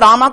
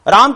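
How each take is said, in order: First: The name ends with a long 'aa' vowel. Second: The name ends without a final long vowel. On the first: The speaker calls it wrong. "यह सब गलत धारणाएं हैं" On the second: The speaker calls it right. "राम की जगह पर"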